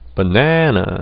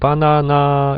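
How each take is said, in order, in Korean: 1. 영어 원어민처럼 슈아 현상으로 모음을 약하게 발음해요. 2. 꽉 찬 고른 한국식 모음으로 발음해요. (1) "네이티브 애들은 어떻게 발음하냐면은" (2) "우리는 바나나 이렇게 그냥 쉽게 발음할 수 있습니다"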